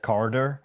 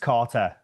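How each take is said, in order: First: The middle consonant sounds like a soft D. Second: The middle consonant is a clear T. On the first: The speaker calls it wrong. "Everyone else says it with the D here" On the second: The speaker calls it right. "I'm like making everyone say it with the T"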